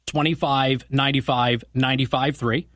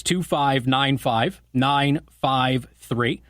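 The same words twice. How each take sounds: First: Said in the usual way. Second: Two five nine five, nine five three, slowly, one digit at a time; measured repeat for someone writing it down. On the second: Real, not acted. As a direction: spell out the number slowly, pausing between digits. Repeats phone number digit by digit.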